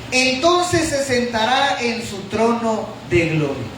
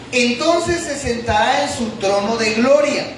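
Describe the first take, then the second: The two takes are said the same way.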